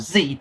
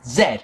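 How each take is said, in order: First: It is said the American way, as zee. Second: It is said the British way, as zed.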